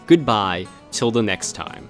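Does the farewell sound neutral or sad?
neutral. The farewell is said without much sadness. The speaker calls it wrong. "you didn't sound too sad when you ended that"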